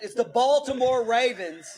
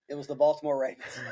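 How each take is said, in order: First: It is yelled loudly. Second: It is said at normal volume.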